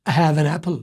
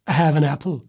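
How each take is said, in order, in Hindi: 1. शब्द आपस में जुड़कर एक प्रवाह में चलते हैं। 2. शब्द आपस में जुड़कर एक प्रवाह में चलते हैं।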